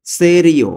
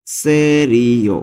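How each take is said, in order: First: Said in the usual way. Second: Slow repeat. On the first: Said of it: "teacher gives the word". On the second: Shown as a demonstration. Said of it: "teacher repeats slowly".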